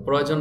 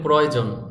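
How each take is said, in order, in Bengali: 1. শব্দটি সহজ, সাধারণ ভঙ্গিতে উচ্চারণ করা হয়েছে। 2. শব্দটি সহজ, সাধারণ ভঙ্গিতে উচ্চারণ করা হয়েছে।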